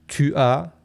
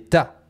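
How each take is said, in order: First: Both words are said fully, as two syllables. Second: The words merge into a single syllable. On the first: "souvent on va dire tu as" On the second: "va donner ta"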